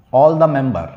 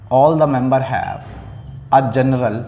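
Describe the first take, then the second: First: Said in the usual way. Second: Slow dictation. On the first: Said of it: "teacher dictating definition". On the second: Shown as a demonstration. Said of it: "teacher dictating definition, repeated slowly".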